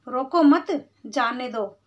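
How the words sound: There is a pause after 'roko mat'.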